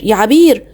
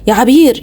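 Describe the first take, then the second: First: Calling out again. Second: A mild call for Abeer. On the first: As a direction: call her once more, fading. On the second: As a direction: call your wife's name across the flat. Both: Acted. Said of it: "بدأ ينادي على مراته الأولانية".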